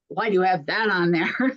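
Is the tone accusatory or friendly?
accusatory. The question sounds sharp and accusing. The speaker disapproves of the choice. The speaker calls it wrong. "But in a tone of voice that isn't"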